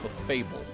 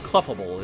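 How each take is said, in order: First: The ending sounds like the word 'fable'. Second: The ending does not sound like 'fable'. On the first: The speaker calls it right. "Because it's like a fable" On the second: The speaker calls it wrong. "Clefable is like, what?"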